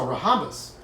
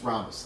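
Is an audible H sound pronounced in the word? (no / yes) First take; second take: yes; no. First: An H sound is pronounced after the R. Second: No H sound is pronounced after the R. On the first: The speaker calls it wrong. "Don't say that" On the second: The speaker calls it right. "The H is silent"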